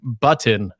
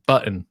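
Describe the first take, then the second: First: The middle T sound is clearly pronounced. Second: The middle T sound is left out. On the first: "make like a conscious effort to say button, and then it sounds a little too strong" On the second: "I leave out the T, like button"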